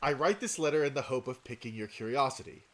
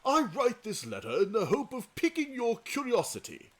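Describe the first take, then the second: First: It is read in the speaker's own voice. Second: It is read in a put-on voice for Shoulder.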